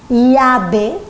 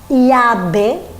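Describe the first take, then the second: The two takes are said the same way.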